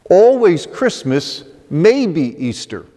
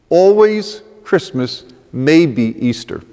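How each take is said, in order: Both takes have the same delivery.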